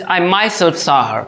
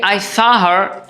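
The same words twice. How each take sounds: First: "myself" given the emphasis, dropping away on "saw her"; stress on myself. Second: Said in the usual way. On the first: Shown as a demonstration. Teacher showing students the intensified version, stress on "myself". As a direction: lean on "myself", then let "saw her" fall. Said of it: "I am intensifying it". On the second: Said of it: "There is a difference in saying".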